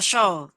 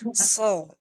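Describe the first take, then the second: First: The s sound becomes a sh sound. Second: The s sound is heavy and thick. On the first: The speaker calls it wrong. "atau terbaca show" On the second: The speaker calls it right. "tebal jadinya ya"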